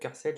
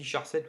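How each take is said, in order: First: The word begins with a 'k' sound. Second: The word begins with a 'sh' sound. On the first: "c'est char pour character, donc je pense que ça se dit en fait car sept" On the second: "ça se dit char sept ou car sept"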